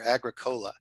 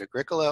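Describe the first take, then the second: First: Agricola as AG-ruh-KOH-luh; compound-word pronunciation. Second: Agricola as uh-GRIK-uh-luh; stressed second syllable. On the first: Librarian giving the other option, Agricola said as AG-ruh-KOH-luh. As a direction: say Agricola like "agri" plus "cola", with a long O. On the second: Librarian quoting a pronunciation question, Agricola stressed on the second syllable. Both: Shown as a demonstration. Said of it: "how do you actually pronounce it?".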